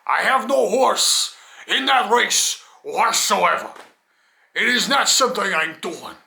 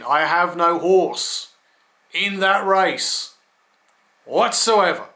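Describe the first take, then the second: First: Slow, higher, grandly declaimed put-on voice. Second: Said in the usual way. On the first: Man stressing he has no stake in it, put-on voice. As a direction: declaim it slowly in a silly affected voice. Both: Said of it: "why I'm talking in that voice".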